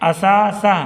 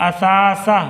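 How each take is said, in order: No difference in how they are said.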